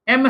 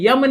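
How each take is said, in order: First: It starts with a plain vowel sound. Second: It starts with a y sound. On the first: The speaker calls it right. "एम है" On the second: The speaker calls it wrong. "यह यम नहीं है"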